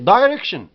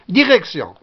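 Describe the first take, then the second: First: It is pronounced the English way, with sh. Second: It is pronounced the French way. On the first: "En anglais, c'est direction" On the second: "Direction, en français"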